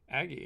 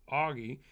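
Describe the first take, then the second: First: The name is said as Aggie. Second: The name is said as Augie. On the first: The speaker calls it wrong. "I said Aggie during the video" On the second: The speaker calls it right. "thanks for letting me know that it is Augie"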